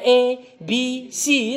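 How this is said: The letters are named with English letter sounds. "pakai versi Inggris"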